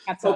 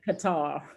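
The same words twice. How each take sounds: First: The word sounds like 'cutter'. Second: The word does not sound like 'cutter'. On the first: This is how it is said locally. "So like cutter" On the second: This is how Americans say it. "Americans call it Qatar"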